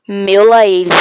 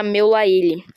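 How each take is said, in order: First: Full-volume yell; shout on request. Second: Said in the usual way. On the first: Shown as a demonstration. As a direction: shout it out for the viewers. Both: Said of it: "Grita, meu lá ele".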